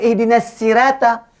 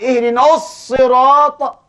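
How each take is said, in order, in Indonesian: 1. Huruf s dalam sirata itu tipis dan ringan. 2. Huruf s dalam sirata itu berat dan tebal. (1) "Kita kata" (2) "Sedangkan sana sad"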